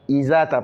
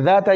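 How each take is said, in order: First: An extra i vowel is added at the start. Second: The word starts directly without an added vowel. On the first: The speaker calls it wrong. "ils mettent un I" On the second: The speaker calls it right. "pas I, il n'y a pas de I"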